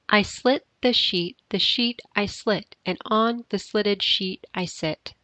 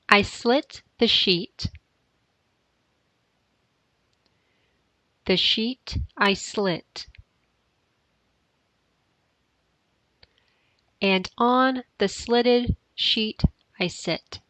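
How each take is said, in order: First: It is said faster. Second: It is said slowly.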